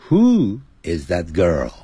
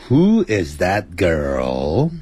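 First: Put-on WHO IS THAT GIRL with the pitch dropping through girl; falling question tune. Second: Put-on WHO IS THAT GIRL with the pitch climbing on girl; rising question tune. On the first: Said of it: "你只能讲". (句尾girl语调下沉) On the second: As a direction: let girl swing upward at the end, slowly. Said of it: "你就不能讲说". (句尾girl语调上扬) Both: Shown as a demonstration.

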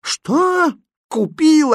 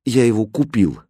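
First: Very high, aghast exclamation; desperate cry. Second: Mildly sheepish admission; embarrassed. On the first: Mother hearing the money went on a puppy, desperate cry. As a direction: cry out in high-pitched disbelief. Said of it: "отчаянно крикнула Фатьма". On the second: Aladdin admitting the purchase to his mother, embarrassed. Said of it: "смущённо ответил Аладдин". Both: A narrator's reading.

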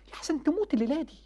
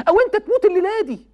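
First: Hushed warning. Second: Loud warning. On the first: Preacher quietly warning young men about dying tonight. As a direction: say it like a grave secret. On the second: Preacher loudly warning young men about dying tonight. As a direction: cry it out higher and louder. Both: Real, not acted.

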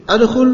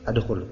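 First: "Adkhul" with a high, loud rising question tune. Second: Said in the usual way. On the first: Shown as a demonstration. Ustadz demonstrating the question form, high rising. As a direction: ask "Adkhul" rising sharply upward. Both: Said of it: "aslinya apa?".

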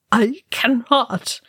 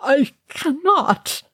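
First: Whispered, slow, choking grief; choked whisper. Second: High, slow, breaking plea; crying out. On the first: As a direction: barely get the words out. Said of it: "Balin choked". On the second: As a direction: cry it out in despair. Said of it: "Balin cried". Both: A narrator's reading.

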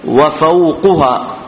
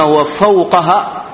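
First: وفوقها as wa-fawquha; u vowel on the qaf in وفوقها; damma on qaf. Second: وفوقها as wa-fawqaha; fatha on qaf. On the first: Teacher explains the word's case ending, damma on qaf. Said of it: "بضم القاف". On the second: Teacher shows the other reading, fatha on qaf. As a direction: open a vowel on the qaf in وفوقها. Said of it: "وإذا فتحنا وقلنا". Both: Shown as a demonstration.

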